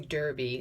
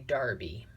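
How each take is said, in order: First: It is said in an American way. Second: It is said in an English way. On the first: "in England they don't say Derby" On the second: "they say Derby"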